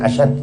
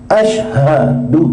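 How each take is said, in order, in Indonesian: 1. Kata itu berakhir dengan konsonan, vokalnya hilang. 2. Kata itu berakhir dengan bunyi vokal. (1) "Asyhad artinya pedih atau sangat keras" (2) "Asyhadu bukan asyhad"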